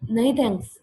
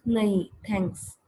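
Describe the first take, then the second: First: "नहीं thanks" blurted with no gap, a bit louder; run together. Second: "नहीं", a short stop, then "thanks"; slow, comma after "नहीं"; pause after nahin. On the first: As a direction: say it in one rushed breath. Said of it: "ऐसे नहीं बोलते". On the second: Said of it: "नहीं के बाद थोड़ा रुकते हैं". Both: Shown as a demonstration.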